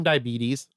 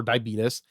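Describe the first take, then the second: First: Said in the usual way. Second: "diabetes" ending in -tus; alternate pronunciation. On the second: Shown as a demonstration. Offering listeners the other way to say it, "diabetes" as diabeetus. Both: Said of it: "however you want to pronounce it".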